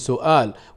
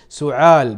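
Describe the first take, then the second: First: The middle consonant is a glottal stop. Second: The middle consonant is a throaty ayn sound. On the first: "بدلا من سؤال" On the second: "إبدال الهمز عينا"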